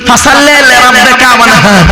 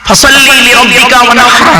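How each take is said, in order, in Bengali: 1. h হলো সাধারণ, নরম একটি শ্বাস। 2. h-টি গলার গভীর থেকে করা হয়। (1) "আর আমরা আমরা উচ্চারণ করি কি" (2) "এই গলার ভিতর থেকে হাইটা উচ্চারণ করবে"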